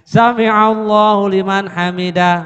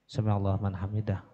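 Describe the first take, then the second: First: It is said loudly and boldly. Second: It is said timidly and softly. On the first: The speaker calls it right. "Nah, gitu" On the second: The speaker calls it wrong. "jangan takut-takut"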